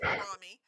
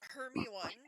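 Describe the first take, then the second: First: The name is said as Harami. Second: The name is said as Hermy-one. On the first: "Harami was one that I did" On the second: "for a while it was Hermy one"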